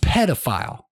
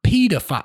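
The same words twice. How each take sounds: First: The word has an American pronunciation. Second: The word has a British pronunciation. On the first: The speaker calls it right. "It's pedophile" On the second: The speaker calls it wrong. "you always be pulling this stuff from Britain"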